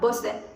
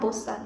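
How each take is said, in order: First: The last syllable is said with an 'e' vowel. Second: The last syllable is said with an 'a' vowel. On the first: The speaker calls it wrong. "bukan bosen" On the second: The speaker calls it right. "Sebenarnya bosan"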